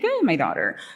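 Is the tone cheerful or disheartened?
cheerful. It is said in a bright, cheerful tone. The speaker is happy to send her out. "we can play with the inflection here, like, yay"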